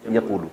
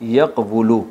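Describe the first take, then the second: First: یقولو as ya-qoo-lu, waw melted into a long oo; reduced spoken form. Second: یقولو with the waw sounded as a consonant, yaq-wu-lu; unreduced underlying form. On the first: Teacher answers how the verb is read, smooth long-vowel form. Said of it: "یقولو کو کیا پڑھتے ہیں". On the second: Teacher shows students the original verb, unreduced pronunciation. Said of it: "یقولو کو یقولو پڑھتے ہیں". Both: Shown as a demonstration.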